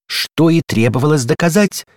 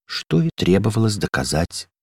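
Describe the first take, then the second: First: Higher, bright victorious cry; exclaimed in triumph; triumphant exclamation. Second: Mild gloomy echo; sad echo. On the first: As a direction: crow as if proving a point. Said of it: "воскликнула дверная ручка". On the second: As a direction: repeat it dejectedly. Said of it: "грустно повторил за ней". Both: A narrator's reading.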